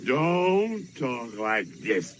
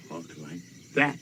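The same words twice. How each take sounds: First: Slow, stern quoted father's correction; a hint of a stern daddy; quoting his father. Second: Much lower, softer, quick correction; quick low follow-up showing the proper way; a lightly voiced father instructing; quoting his father. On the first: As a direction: lay down the rule slowly like a strict father. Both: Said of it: "My daddy said".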